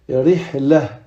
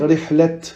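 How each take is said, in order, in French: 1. Le mot se termine par un son h. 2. Le mot se termine par un son t. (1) "on va dire rihlah" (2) "On va pas dire rihlat"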